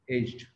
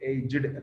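First: The word is said with one syllable. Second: The word is said with two syllables. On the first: "that's why we have to say aged" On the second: "one more vowel sound should be there"

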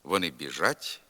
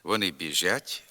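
First: The ж sound is hard before the vowel. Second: The ж sound is softened before the vowel. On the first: The speaker calls it right. "Нормативна вимова" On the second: The speaker calls it wrong. "пом'якшена вимова шиплячих"

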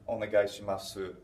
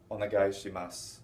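First: The final u is clearly pronounced. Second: The final u is barely heard. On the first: This sounds very formal or like a phone call. "They won't put that u on the end very distinctly" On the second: This is the usual everyday way to say it. "the way I've been pronouncing it, and the way most Japanese people will say this"

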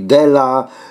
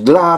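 First: The word is said as two syllables. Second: The word is said as one syllable. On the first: The speaker calls it wrong. "to mówi dela. Przekręca" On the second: The speaker calls it right. "zamiast mówić dla"

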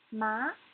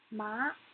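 The two takes are said the same way.

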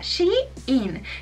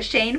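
First: The name sounds like two parts, 'she in'. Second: The name sounds like one syllable, 'Shane'. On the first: The speaker calls it right. "en realidad se pronuncia Shein, que sería como ella está in" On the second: The speaker calls it wrong. "la vez pasada había dicho Shane"

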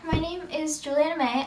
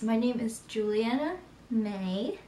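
First: It is said very fast. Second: It is said slowly.

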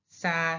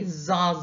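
First: The syllable starts with a hissing s sound. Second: The syllable starts with a buzzing z sound. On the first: The speaker calls it right. "it's pronounced like the S" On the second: The speaker calls it wrong. "Don't do it like English"

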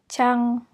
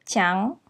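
First: The syllable is said flat, with no tone. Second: The syllable is said with its marked tone. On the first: "without the tone" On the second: "with the tone"

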